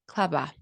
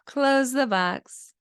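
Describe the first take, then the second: First: The words run together with no boundaries. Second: Each word is said clearly and separately.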